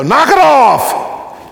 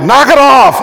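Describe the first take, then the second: First: Sharp, slow, high parental shout; drawn-out high parent yell at the kids. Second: Full-volume high shout at the table; parent yelling. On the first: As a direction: bark it at kids bouncing in the back seat. Parent scolding kids in car. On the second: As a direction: blast it at fidgeting kids. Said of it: "you're like". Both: Acted.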